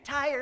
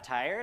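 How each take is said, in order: First: It is said as an excited exclamation. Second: It is said as a questioning inquiry. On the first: Someone is exclaiming excitedly about being tired. The speaker calls it wrong. "They're not excited. It's not an exclamation for tired" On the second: Someone is asking whether another is tired. The speaker calls it right. "People ask"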